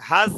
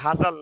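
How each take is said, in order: First: The final l follows directly with no vowel. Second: A full vowel is inserted before the final l. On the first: The speaker calls it right. "একটু লামটার উচ্চারণটাও আসবে হাজল" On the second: The speaker calls it wrong. "হাজাল না"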